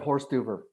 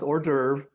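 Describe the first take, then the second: First: It is said like English 'horse duver'. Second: It is said with a French pronunciation. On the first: The speaker calls it wrong. "Just having fun" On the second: The speaker calls it right. "I know it's pronounced hors d'oeuvre"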